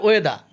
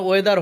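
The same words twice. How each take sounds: First: ওয়েদার ending on an open "da", no R; silent final R. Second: ওয়েদার with the final R sounded; final R pronounced. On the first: Teacher correcting learners, ওয়েদার said as "weda". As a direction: drop the last R of ওয়েদার. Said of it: "এটা হবে ওয়েদার". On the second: Teacher showing learners what to avoid, ওয়েদার with sounded R. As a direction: end ওয়েদার on an audible R. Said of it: "এখানে ওয়েদার হবে না". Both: Shown as a demonstration.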